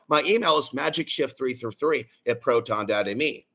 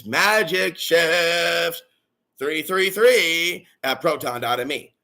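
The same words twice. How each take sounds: First: Said in the usual way. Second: Slow, drawn-out spelling out of the email; slowed-down repeat. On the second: Real, not acted. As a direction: stretch "magicshift" and "three three three" out slowly. Repeats the email slowly for listeners.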